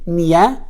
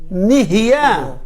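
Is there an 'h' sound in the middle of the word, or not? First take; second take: no h; with h. First: The word is said without a middle 'h' sound. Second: The word is said with a middle 'h' sound. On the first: The speaker calls it wrong. "Many people says nia. ... You're missing one letter" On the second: The speaker calls it right.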